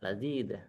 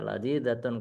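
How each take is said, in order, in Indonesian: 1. Kata ini berakhir dipotong menjadi "-ah". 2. Kata ini berakhir dengan suku kata "-atun" yang penuh. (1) "dimatikan ya lazidah" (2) "nggak perlu dibaca lazidatun kayak orang ngaji"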